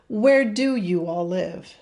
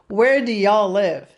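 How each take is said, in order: First: You all is said as two separate words. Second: You all is contracted into one syllable. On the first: "Separate that contraction" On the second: "I know I'm saying that horrible"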